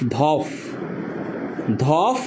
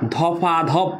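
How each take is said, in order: First: The two syllables are joined with no vowel between. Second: An extra vowel follows the first syllable. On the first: "সমীকরণটা এখানেও ঠিক আছে" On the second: "মাঝখানে এখানে break করে ফেললাম"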